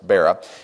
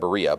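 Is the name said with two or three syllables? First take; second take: two; three. First: The name is said with two syllables. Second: The name is said with three syllables. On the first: The speaker calls it right. "It's Bera" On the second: The speaker calls it wrong. "you read it Berea, but it's not"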